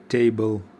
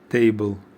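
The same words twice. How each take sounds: No difference in how they are said.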